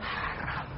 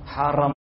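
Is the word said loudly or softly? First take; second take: softly; loudly. First: The word is said softly and gently. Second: The word is said loudly and forcefully. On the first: "kita lembutkan" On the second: "jangan keras-keras"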